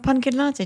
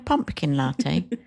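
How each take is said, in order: First: The middle is said with n, no p. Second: The middle is said with m and p. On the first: The speaker calls it wrong. "And with an N" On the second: The speaker calls it right. "Do you mean a pumpkin latte?"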